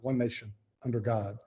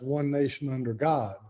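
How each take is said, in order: First: There is a pause after 'nation'. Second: It flows with no pause after 'nation'. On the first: The speaker calls it wrong. "We generally pause after saying one nation" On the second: The speaker calls it right. "the pledge was written as"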